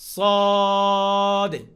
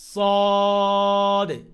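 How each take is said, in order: Both takes have the same delivery.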